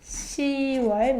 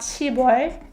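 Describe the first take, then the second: First: It is said without a p sound, as siwol. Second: It is said with a p sound, as sibwol. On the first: The speaker calls it right. "You should be careful with the pronunciation" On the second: The speaker calls it wrong. "not 십월"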